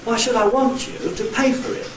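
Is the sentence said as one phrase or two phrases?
two phrases. Two phrases, with main stresses on want and pay. "With two nuclei, one on want and one on pay"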